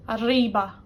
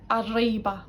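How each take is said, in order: First: Arriba said with an untrilled English r; arriba, attempted trill that does not roll; failed Spanish r. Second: Arriba with a closer attempt at a tapped r; better Spanish r. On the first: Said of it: "I can't do the R". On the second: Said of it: "the best it's ever been". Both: Shown as a demonstration.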